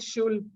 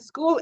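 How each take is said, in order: First: The word starts with an sh sound. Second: The word starts with an sk sound. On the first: The speaker calls it wrong. "and then you said shul" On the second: The speaker calls it right. "the first time you read it correctly, you said school"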